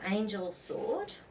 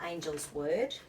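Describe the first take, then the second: First: The s sound starts the second word. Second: The s sound ends the first word. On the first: A sword belonging to an angel. "depending on how you pronounce it" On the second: A word spoken by an angel. "depending on how you pronounce it"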